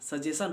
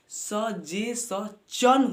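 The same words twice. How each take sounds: First: The word ends with a 'shun' sound. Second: The word ends with a 'chun' sound. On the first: The speaker calls it wrong. "सजेशन होता ही नहीं है" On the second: The speaker calls it right. "ये चन के रूप में"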